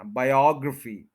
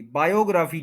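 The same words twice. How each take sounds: First: biography as bai-AWG-ruh-fee; second-syllable stress. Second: biography as baa-yo-GRAA-fee; full long "graa" in biography; mispronunciation. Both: Shown as a demonstration. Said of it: "biography नहीं कहना".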